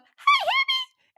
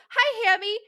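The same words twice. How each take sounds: First: It is said in a higher-pitched toy voice. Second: It is said at a normal, lower pitch.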